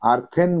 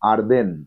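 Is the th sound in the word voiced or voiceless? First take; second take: voiceless; voiced. First: The th is voiceless, as in 'thin'. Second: The th is voiced, as in 'then'. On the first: The speaker calls it wrong. "আর্থেন বলবে না" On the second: The speaker calls it right.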